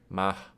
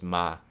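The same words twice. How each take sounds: First: A breathy puff of air follows the vowel. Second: The vowel ends cleanly with no added air. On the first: "an aspirated S sound where it's like ma" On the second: "just ma and there's no extra like air coming out"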